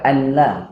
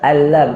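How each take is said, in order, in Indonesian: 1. Bunyi n jelas diucapkan sebelum l. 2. Bunyi n menyatu penuh dengan l setelahnya. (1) "bukan anla" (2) "Baru ambil lam. Lupakan nun"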